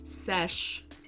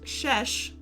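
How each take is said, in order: First: The word begins with an 's' sound. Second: The word begins with an 'sh' sound. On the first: The speaker calls it right. "first S and then second S, so sesh" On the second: The speaker calls it wrong. "not shesh"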